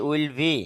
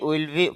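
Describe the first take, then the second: Both takes have the same delivery.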